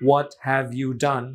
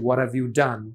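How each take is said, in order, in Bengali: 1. প্রতিটি শব্দ পূর্ণভাবে এবং আলাদাভাবে উচ্চারিত হয়। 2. শব্দগুলো একসাথে মিশে যায় এবং 'have' সংক্ষিপ্ত করে বলা হয়।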